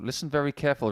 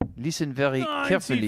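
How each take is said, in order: First: It is said in his normal accent. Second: It is said in a put-on foreign accent.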